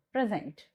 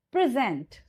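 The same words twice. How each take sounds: First: The noun "present", PRE-sent; noun stress on PRESENT. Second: The verb "present", pre-SENT; verb stress on PRESENT. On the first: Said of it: "So this is your noun". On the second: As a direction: PRESENT stressed on the second syllable. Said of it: "it means your verb". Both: Shown as a demonstration.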